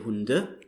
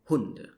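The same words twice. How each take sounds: First: The stress falls on the second syllable. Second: The stress falls on the first syllable. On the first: The speaker calls it wrong. "you wouldn't say Hunde" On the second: The speaker calls it right. "usually you stress the first syllable"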